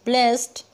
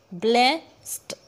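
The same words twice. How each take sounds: First: Said in the usual way. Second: "blessed" slowly broken in two, ब्ले, स्ड; split syllables. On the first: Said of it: "टू syllable हुए ना". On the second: Shown as a demonstration. Teacher counts syllables for students, "blessed" in two pieces. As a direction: pause inside "blessed" after ब्ले. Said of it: "टू syllable इसमें आ गए".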